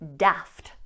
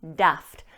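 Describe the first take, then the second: First: The vowel is a short, flat 'a' sound. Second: The vowel is a short, flat 'a' sound.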